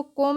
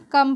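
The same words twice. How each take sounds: First: कोम with a long o, like "kohm"; wrong spelling pronunciation. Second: Said in the usual way. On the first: Shown as a demonstration. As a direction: read "come" wrongly as कोम, with an o. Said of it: "इसको कोम नहीं पढ़ते हैं". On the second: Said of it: "कम पढ़ते हैं".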